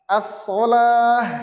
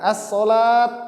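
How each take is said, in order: First: The word ends with a soft h sound. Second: The word ends with a t sound. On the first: The speaker calls it right. "Ketika dia wakof, sukun, wakof, bacanya ini as-sholah" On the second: The speaker calls it wrong. "Bukan as-sholat, bukan"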